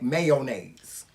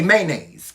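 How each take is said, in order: First: It is said the Southern way. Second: It is said the Brooklyn way.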